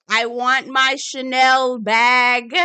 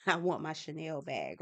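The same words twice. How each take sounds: First: Loud, drawn-out mock demand; playful shout. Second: Soft, lower-pitched restatement; subdued. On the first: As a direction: holler a wish out to the universe. Shouting her wish into the atmosphere. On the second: Real, not acted. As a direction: say it quietly, keeping it down for someone next door. Repeats it subdued, boyfriend working nearby.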